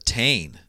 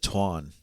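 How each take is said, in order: First: The name is said with an Anglicized pronunciation. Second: The name is said with an Irish-style pronunciation. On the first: The speaker calls it wrong. "we'll call it the Tane because well we're dumb Americans" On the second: The speaker calls it right. "the proper pronunciation"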